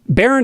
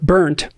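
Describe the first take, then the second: First: The name does not sound like 'burnt'. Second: The name sounds like the word 'burnt'. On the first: The speaker calls it right. "Barent is good" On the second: The speaker calls it wrong. "people have pronounced it as burnt my whole life"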